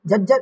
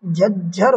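First: झज्जर said quickly, run into the sentence; wrong form. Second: झज्जर slowly as "jhaj - jhar"; correct form. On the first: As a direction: say झज्जर lightly as "jajjar", the mistaken form. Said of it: "इस तरीके से नहीं लिखा जाता". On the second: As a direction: split झज्जर into two drawn-out, low syllables. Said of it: "सही वर्तनी होगी". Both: Shown as a demonstration.

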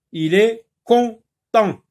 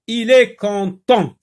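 First: "content" broken into con... tent, slowly; loud, high and slow "content", a gap between syllables; split on/an contrast. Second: "content" loud and high, on then an; punched-out "content", falling at the end; clear on/an contrast. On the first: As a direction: separate the two nasal vowels in "content". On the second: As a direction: model "content" with two distinct nasal vowels. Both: Shown as a demonstration. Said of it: "la différence qu'il faut faire".

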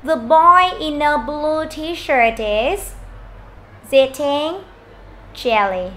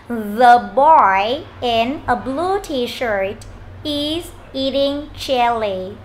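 First: Put-on slow linked reading, "in a" run together in "The boy in a blue t-shirt"; linked sounds. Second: Said in the usual way. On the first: Shown as a demonstration. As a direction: join the final consonant of "in" onto "a", drawn out slowly. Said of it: "chúng ta sẽ nối như sau". (đọc chậm, nối âm "in a" trong "The boy in a blue t-shirt") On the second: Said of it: "nếu chúng ta nối âm được chỗ này".

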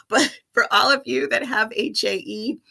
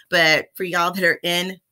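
First: Said in the usual way. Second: A slip into a light Texas accent. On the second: Real, not acted. Vlogger back from Texas, slipping into a light Texas accent. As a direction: let a touch of Texas creep in on y'all. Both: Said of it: "Why am I talking with an accent now?".

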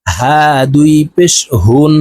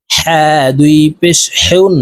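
First: হা and হুন said with a gentle airy ha; light throat ha. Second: হুন with the big ha from the middle of the throat; হা and হুন said with a breathy mid-throat ha. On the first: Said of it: "আর এই হা হলকের শুরু থেকে উচ্চারণ হবে". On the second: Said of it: "এই হা বড় হা হলকের মধ্যখান থেকে উচ্চারণ হবে". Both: Shown as a demonstration.

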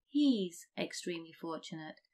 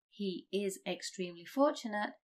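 First: "He's" run together as one syllable; contracted form. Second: "He is" said as two clear words; full form. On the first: Teacher gives the everyday form. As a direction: say "He's extremely fortunate" contracted. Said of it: "we'd say". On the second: Teacher reads the long form first. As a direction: keep "He is extremely fortunate" uncontracted. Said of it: "instead of". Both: Shown as a demonstration.

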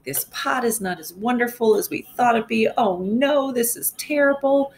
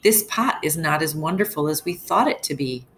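First: Higher, more exasperated mock complaint; angry yelling. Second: Mildly angry husband, barely raised; a touch of frustration in the complaint; read angrily. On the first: Shown as a demonstration. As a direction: show the class how he yells it, rising. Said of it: "he's just yelling". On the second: Acted. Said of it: "cried angrily".

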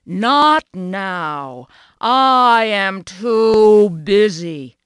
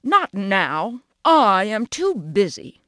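First: Loud, slow, cross refusal; a cow cross at being bothered, loud and drawn out. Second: Grumbling. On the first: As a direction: bellow it out slowly, annoyed. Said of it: "said Cow crossly". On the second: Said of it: "grumbled Grass". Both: A narrator's reading.

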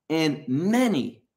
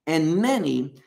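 First: Slow, leaning hard on "many"; stress on many. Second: "many" hit firmly again; stress on many. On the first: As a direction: press the word "many", drawn out. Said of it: "that's what's emphatic". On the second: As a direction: repeat it, punching "many". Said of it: "That's what's being emphasized". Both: Shown as a demonstration.

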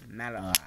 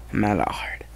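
First: A quiet British accent on Mallard. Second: Said in the usual way. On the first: Shown as a demonstration. Kid naming his toy engine in a soft British accent. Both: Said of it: "I'm trying to mimic a British accent voice".

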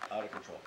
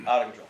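First: Said in the usual way. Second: Out of control punched louder on the repeat; emphatic repeat. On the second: Real, not acted. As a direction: hit "Out of control" hard the second time. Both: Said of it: "my anger".

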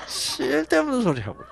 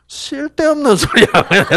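First: Gyeongsang husband repeat. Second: Gyeongsang husband gruff. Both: Retold or imitated. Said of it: "경상도 남자들은 뭐라 그러게".

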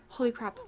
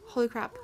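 The two takes are said the same way.

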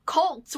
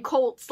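First: Cults said with a short U vowel, kuhlts. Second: Colts said with a long O, like the football team; Colts pronunciation. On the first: Correcting herself for viewers, cults with a short U. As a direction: stretch cults slowly with a clear short U. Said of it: "cults with the U". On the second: Showing viewers how her accent says it, Colts with an O. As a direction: say Colts with an O sound, kohlts. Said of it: "it sounds like I'm saying Colts". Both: Shown as a demonstration.

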